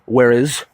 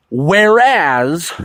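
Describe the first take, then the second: First: "Where is" for "whereas", ending like "iz"; lower, quick "Where is" with a reduced last vowel; variant pronunciation. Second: "whereas" drawn out with a full AZ ending; second syllable of "whereas" said like "as"; deliberate pronunciation. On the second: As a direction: stretch "whereas" slowly, clear short A in the second syllable. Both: Shown as a demonstration. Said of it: "some would like to say".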